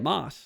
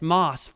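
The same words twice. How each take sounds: First: The vowel is a short 'o' sound. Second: The vowel is a long drawn 'aw' sound. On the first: The speaker calls it right. "that's how you say it" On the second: The speaker calls it wrong. "I say M A W S"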